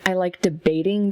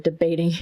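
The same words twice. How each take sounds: First: Said in the usual way. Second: Debating said firmly, as the answer; stress on debating. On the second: Shown as a demonstration. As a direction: land on debating as the right word. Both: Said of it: "That's the word".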